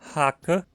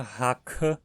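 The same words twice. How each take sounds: First: The middle k has no puff of air. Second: The middle k has a puff of air. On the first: The speaker calls it right. "a versão não aspirada" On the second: The speaker calls it wrong. "Não dizemos nunca"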